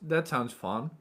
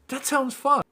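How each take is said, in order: First: It is said flatly, with a sarcastic tone. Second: It is said lively, with an enthusiastic tone. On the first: The speaker does not really find it fun. The speaker calls it wrong. "It sounds really sarcastic" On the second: The speaker is genuinely interested. The speaker calls it right. "You gotta give your energy to the conversation"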